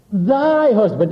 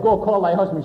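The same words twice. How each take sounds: First: Slow, weighty "thy" before a falling "husband"; stress on THY. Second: Said in the usual way. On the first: Retold or imitated. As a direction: lean hard on "thy" so it sounds like a different man's wife. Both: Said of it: "He emphasized the word "thy".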